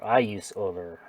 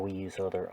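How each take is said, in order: First: "I" hit louder to correct the pronoun; stress on I. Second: Said in the usual way. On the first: Real, not acted. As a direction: correct yourself by leaning hard on "I".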